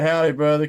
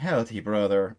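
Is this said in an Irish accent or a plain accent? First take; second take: plain; Irish. First: It is said in the speaker's ordinary accent. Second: It is said in a put-on Irish accent.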